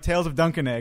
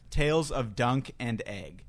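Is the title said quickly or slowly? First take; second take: quickly; slowly. First: It is said quickly with the words run together. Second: It is said slowly with the words kept apart. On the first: The speaker calls it wrong. "I keep saying it fast" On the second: The speaker calls it right. "I have to pronounce this correctly"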